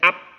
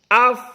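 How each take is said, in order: First: The final sound stops abruptly like a p. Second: The final sound flows on with breath. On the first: The speaker calls it wrong. "Kalau kita tahan jadi ap" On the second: The speaker calls it right. "Napas tidak boleh kita tahan"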